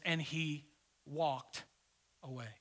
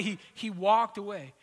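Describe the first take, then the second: First: And he, walked, away, each word set apart by long pauses, slow and soft; slow dramatic reading. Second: Said in the usual way. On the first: Shown as a demonstration. Preacher savouring the verse for the congregation, slow and soft with pauses. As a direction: let And he walked away hang, one word at a time. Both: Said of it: "I love what it says".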